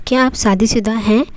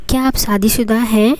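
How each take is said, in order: Both takes have the same delivery.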